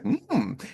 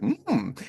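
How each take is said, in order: First: The hum sounds excited and rises in pitch. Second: The same.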